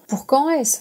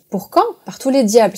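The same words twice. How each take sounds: First: Mild grumble, pitched higher, falling at the end; grumbled question. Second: Exasperated exclamation. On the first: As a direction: ask it as a lightly grumbled protest. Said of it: "grommela le quartier-maître". (question bougonne, un peu aiguë) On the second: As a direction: throw the question back, mildly exasperated. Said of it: "s'écria Silver". (exclamation indignée, la question montant vers l'aigu) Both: A narrator's reading.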